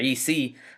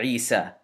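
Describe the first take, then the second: First: The word ends with an ee vowel sound. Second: The word ends with an a vowel sound. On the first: The speaker calls it wrong. "we don't say Isi" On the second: The speaker calls it right. "we say Isa"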